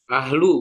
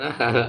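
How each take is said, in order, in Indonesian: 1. Kata ini diakhiri dengan bunyi vokal. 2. Kata ini diakhiri dengan bunyi konsonan. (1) "Ahlu bukan ahal" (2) "bukan ahal"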